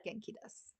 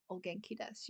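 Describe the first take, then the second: First: "Genki desu" with no O before it; correct plain reply. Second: "O genki desu" with the honorific O at the start; wrong honorific reply. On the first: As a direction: say "Genki desu" simply, dropping the O. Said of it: "You just say". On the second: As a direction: say "O genki desu", adding O before genki. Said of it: "you do not reply ... by saying". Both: Shown as a demonstration.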